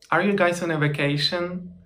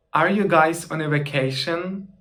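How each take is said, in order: Both takes have the same delivery.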